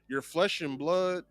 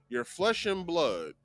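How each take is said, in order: First: The voice rises at the end like a question. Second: The voice falls at the end like a statement. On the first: It is a question. "Now it's a question" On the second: It is a statement. "I said that as a statement"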